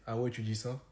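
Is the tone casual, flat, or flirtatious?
flat. It is said flatly, without any intonation. "quand je le dis sans intonation"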